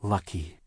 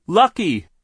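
First: Said in the usual way. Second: High, very loud single-word shout. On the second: A narrator's reading. Eldest sister commands her hypnotized brother, shouted. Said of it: "the eldest Baudelaire shouted".

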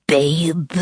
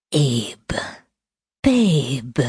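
First: Contemptuous. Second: Sung, lilting, mocking repetition; sung, sing-song. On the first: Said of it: "His voice was contemptuous". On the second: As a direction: chant the names teasingly. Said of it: "in a sing-song voice". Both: A narrator's reading.

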